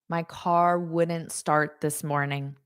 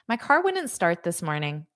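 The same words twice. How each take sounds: First: The sentence is said at a careful, slower pace. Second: The sentence is said quickly, as in fast speech.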